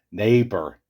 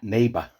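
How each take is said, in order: First: Neighbor with a clear final r; correct neighbor. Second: Neighbor without the r, like neighbuh; mocked wrong neighbor. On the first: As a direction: sound the r at the end of Neighbor. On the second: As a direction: imitate neighbor with the r dropped. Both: Shown as a demonstration. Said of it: "Neighbor, not neighbor".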